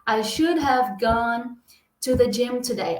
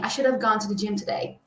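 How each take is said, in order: First: 'Should have' is said as two full words. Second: 'Should have' is run together into one reduced word. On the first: Natives rarely say it this way. The speaker calls it wrong. "Ao invés do nativo falar assim" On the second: This is how natives usually say it. The speaker calls it right. "geralmente ele vai falar assim"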